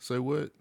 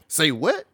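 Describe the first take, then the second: First: It is said in a plain neutral voice. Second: It is said in a sassy attitude voice.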